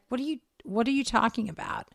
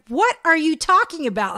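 First: Said in the usual way. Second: High, loud exasperated question; irritated. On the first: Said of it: "And she's like". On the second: Retold or imitated. Friend denying the bacon story, getting irritated. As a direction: snap it in mock irritation. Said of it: "she's getting all irritated".

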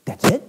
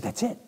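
First: Retold disbelief on "That's it?"; surprised question. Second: Soft, understated "That's it"; hushed affirming "That's it"; quiet confirmation. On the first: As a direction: echo "That's it" back as a startled question. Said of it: "She goes". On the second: Retold or imitated. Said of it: "I said".

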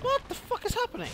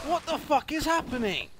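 First: Very high yelled question; shocked shout. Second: High, loud yelled question; shocked shout. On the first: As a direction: shriek it in total confusion. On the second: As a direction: shout it in disbelief. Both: Real, not acted. Player shocked by game chaos.

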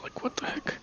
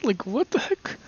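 First: A breathy puzzled whisper. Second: Said in the usual way. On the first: Real, not acted. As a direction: whisper it to yourself, baffled. Puzzled muttering, then repeated aloud.

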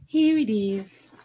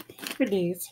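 First: High, slow sing-song "Here it is"; playful reveal. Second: Said in the usual way. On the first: Real, not acted. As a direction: stretch it out, teasing the viewers.

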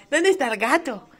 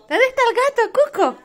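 First: Said in the usual way. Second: High pet-talk voice. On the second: Real, not acted. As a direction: coo it high like talking to a pet. Calling the cat Cuco.

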